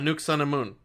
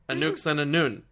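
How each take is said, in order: First: The last syllable begins with an M sound. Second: The last syllable begins with an N sound. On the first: The other person's version of the name. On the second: The speaker's own version of the name.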